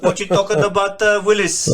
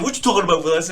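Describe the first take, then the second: First: Put-on TV catchphrase in a Filipino accent; high, loud Filipino-accented take on a catchphrase. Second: Put-on high, quick child-star catchphrase; punchy TV catchphrase, pitched up; Gary Coleman. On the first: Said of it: "change the whole thing". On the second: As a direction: imitate the sitcom kid's catchphrase accent. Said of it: "even the Gary Coleman, like, accent".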